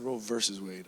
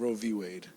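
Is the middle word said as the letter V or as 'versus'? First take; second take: versus; letter V. First: The middle word is said as 'versus'. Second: The middle word is said as the letter V. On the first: The speaker calls it wrong. "I always say Roe versus Wade" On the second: The speaker calls it right. "but it's"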